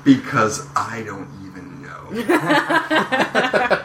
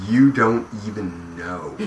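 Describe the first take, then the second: First: "I" leaned on, then a very slow "don't even know"; stress on I. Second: Slow, drawn-out "you don't even know"; stress on YOU. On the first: Turns the tease on himself. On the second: Teasing about secret new series. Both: Real, not acted.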